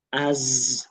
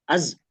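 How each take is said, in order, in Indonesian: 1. Bunyi z dipanjangkan dengan halus. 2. Bunyi z dipotong tiba-tiba. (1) "jangan disentak, kan dia mengalir" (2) "Kalau disentak"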